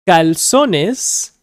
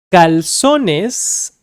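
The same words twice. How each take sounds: The two takes are said the same way.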